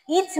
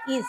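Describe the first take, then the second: First: "ইজ" said as "its", with a ts ending; wrong pronunciation. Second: "ইজ" said as "iz", soft z ending; teacher's "ইজ", ending in z rather than ts; correct pronunciation. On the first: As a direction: demonstrate the mistake, "ইজ" ending in sharp ts. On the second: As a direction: model "ইজ" with a buzzed final z. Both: Shown as a demonstration. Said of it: "ইজ না, ওটা ইজ".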